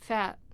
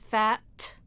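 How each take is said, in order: First: The final T is held and not released. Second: The final T is clearly released. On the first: "it's not released" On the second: "nobody ever says fat unless they're really trying to make a point"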